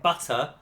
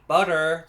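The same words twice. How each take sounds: First: Butter is said with a British accent. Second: Butter is said with an American accent. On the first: Locals did not understand it. "keep saying butter twenty times before being understood" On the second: It was said so locals would understand. "slight American accents just to make ourselves understood"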